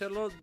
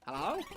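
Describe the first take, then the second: First: It is said in an Indian English accent. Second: It is said in a Southern American accent. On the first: "It was a man with an Indian accent" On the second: "I have kind of this this um this sort of southern accent"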